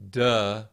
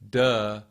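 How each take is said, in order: The two takes are said the same way.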